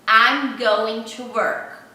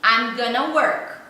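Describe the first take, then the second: First: Every word is said fully and separately. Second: 'Going to' is shortened to 'gonna'. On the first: This is the form taught in school. "Você aprende assim" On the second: This is how natives say it in everyday speech. "no dia a dia, ele vai falar assim"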